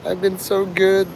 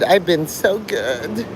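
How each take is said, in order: First: "I've been so good" high, falling on "good"; mock pout. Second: Stretched slow "I've been so good" rising high; mock whine. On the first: Mocking Mark pleading he was good, sulky falling whine. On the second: Mocking Mark begging his daddy for praise, slow rising whine. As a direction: drag out "I've been so good" like a pouting kid, voice rising at the end. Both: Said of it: "ranting and raving to all".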